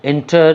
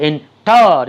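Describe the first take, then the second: First: Said in the usual way. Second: enter with an exaggerated, drawn-out TAR; wrong final stress. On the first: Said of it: "আমরা plane উচ্চারণ করছি". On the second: Shown as a demonstration. Teacher showing how not to say it, enter stressed on TAR. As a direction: overdo the second syllable of enter, en-TAAR. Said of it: "এভাবে বলছি না".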